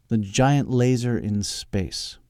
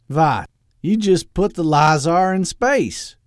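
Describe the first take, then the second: First: Said in the usual way. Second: Put-on loud, high, slow Austrian-tinged villain accent; evil accent. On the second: Doctor Loeb questioning Edwin's laser plan, evil accent. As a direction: ask it in a hammy evil accent. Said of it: "talked in the evil accent".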